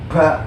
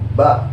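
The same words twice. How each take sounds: First: The consonant is released with an audible puff of breath. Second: The consonant is released cleanly without any breath. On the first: The speaker calls it wrong. "bukan kayak gitu" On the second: The speaker calls it right. "nggak ada suara hembusan nafasnya"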